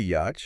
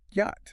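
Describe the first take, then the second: First: "Yacht" with a ch sound, yatch; spelling pronunciation. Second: "Yacht" said as yot, silent ch; correct pronunciation. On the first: Co-host showing how it looks, spelling pronunciation. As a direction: say "Yacht" ending in ch, pitch rising. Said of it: "It looks like it should be". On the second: Co-host correcting the spelling, correct pronunciation. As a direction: say "Yacht" to rhyme with hot. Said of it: "But it's just Yacht". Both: Shown as a demonstration.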